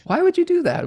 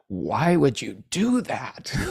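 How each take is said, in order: First: The question sounds open and genuinely curious. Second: The question sounds judging and accusing. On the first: The asker sincerely wants to understand the reasoning. The speaker calls it right. "What are you thinking there? Explain your process" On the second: The asker disapproves of what was done. The speaker calls it wrong. "a question can come off as a judgment"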